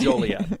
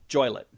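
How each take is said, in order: First: It is said as three syllables, jo-lee-et. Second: It is said as two syllables, joy-let. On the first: The speaker calls it right. "but it's" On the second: The speaker calls it wrong. "it's illegal to mispronounce that name"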